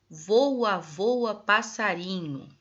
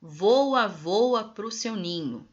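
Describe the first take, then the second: First: Voa, voa, passarinho read slowly, stressing voa, ending as if it goes on; unfinished, trailing. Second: Louder Voa, then voa pro seu ninho slow and falling to an end; continuing verse. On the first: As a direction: read it slowly as if the line hangs in the air. (entonação de algo inacabado, lenta) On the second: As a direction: read slowly, landing the verse home. (continuação do verso, lenta e conclusiva) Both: Shown as a demonstration. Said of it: "Depois continua".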